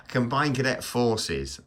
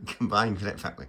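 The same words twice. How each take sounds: First: Slow, higher, careful "Combined Cadet Forces"; deliberate correction. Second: "Combined Cadet Fa-" broken off at the last word; stumbling attempt. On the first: Vlogger correcting his fumbled cadet unit's name, slow and deliberate. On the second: Vlogger fumbling his cadet unit's name, stumbling and breaking off. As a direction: trip on the end of "Combined Cadet Fa-". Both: Real, not acted.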